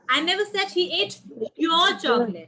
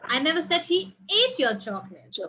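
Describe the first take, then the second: First: The word "your" carries the stress. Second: The word "ate" carries the stress. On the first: The chocolate belonged to someone else. "It was not yours" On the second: He may only have tasted it. "Maybe he just tasted"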